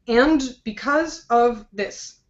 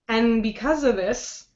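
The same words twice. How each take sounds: First: The word 'and' is said fully and strongly. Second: The word 'and' is reduced to a weak form. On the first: The speaker calls it wrong. "I did not say" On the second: The speaker calls it right. "it's not the strong sound"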